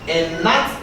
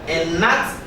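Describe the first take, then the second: No difference in how they are said.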